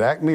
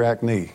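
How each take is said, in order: First: Said in the usual way. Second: "acne" with the second syllable leaned on; alternate pronunciation. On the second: Shown as a demonstration. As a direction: say "acne" as ack-NEE. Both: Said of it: "is it acne or acne?".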